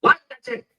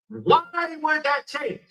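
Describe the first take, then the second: First: Higher and louder, rising on change; sharp incredulous question. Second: Slow, drawn-out, falling question; slow puzzled question. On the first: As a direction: fire it back in outrage, pitch up on change. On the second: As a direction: let each word of the question hang, slowly. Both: Acted. Repeats question, slow then sharp.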